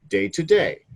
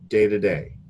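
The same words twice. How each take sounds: First: Each word is pronounced fully and separately. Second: The words are run together and softened. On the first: The speaker calls it wrong. "it says day to day" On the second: The speaker calls it right. "We pronounce it like this"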